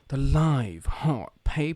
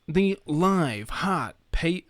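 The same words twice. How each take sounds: First: It is said in a creepy, sultry announcer voice. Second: It is said in an American announcer accent. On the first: The speaker calls it right. "I need to do the the uh, television X" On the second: The speaker calls it wrong. "I'm doing the uh, American accent then"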